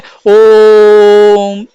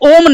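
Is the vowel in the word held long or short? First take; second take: long; short. First: The vowel is drawn out long. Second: The vowel is short and not drawn out. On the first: The speaker calls it right. "लंबा खींचा जाता है ओम, इस तरीके से" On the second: The speaker calls it wrong. "इसको ओम नहीं उच्चारित किया जाता है"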